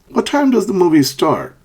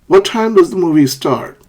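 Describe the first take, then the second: The two takes are said the same way.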